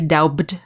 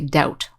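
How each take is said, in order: First: A B sound is pronounced in the middle. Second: No B sound is pronounced at all. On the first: The speaker calls it wrong. "we don't say doubt" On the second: The speaker calls it right. "we just say doubt, like there's no B"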